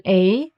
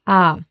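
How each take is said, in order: First: Said in the usual way. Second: "A" said as open "ah"; pure German "ah" for "A". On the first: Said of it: "The German A is pronounced as A". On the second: Shown as a demonstration. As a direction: say "A" like the vowel in father. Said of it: "is pronounced as A".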